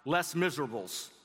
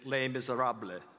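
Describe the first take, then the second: First: It is read with an English pronunciation. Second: It is said with a French pronunciation. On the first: "the title looks like Les Miserables" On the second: "the French pronunciation is Les Miserables"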